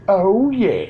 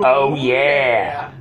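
First: It is said in his normal voice. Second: It is said in a Kool-Aid Man voice.

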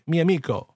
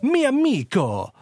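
First: It is said with a natural, casual Italian delivery. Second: It is said with an exaggerated Italian accent. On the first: The speaker calls it right. "it doesn't sound ultra accented" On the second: The speaker calls it wrong. "That's not how they talk"

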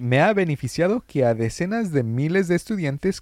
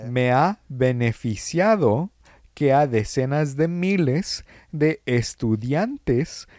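First: It is read at a normal, quicker pace. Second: It is read slowly and deliberately.

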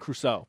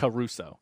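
First: The C blends directly into the R. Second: The C is followed by an extra vowel. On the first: "People say Robinson Crusoe" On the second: "I've always pronounced the C as a separate, like it has a Hyphen"

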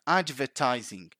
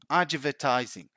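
Both takes have the same delivery.

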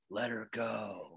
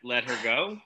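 First: It is said in a scary Batman voice. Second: It is said in a plain, normal voice.

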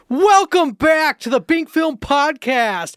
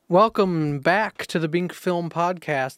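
First: It is said imitating the co-host's voice. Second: It is said in his own normal voice.

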